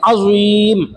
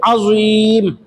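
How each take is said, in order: Both takes have the same delivery.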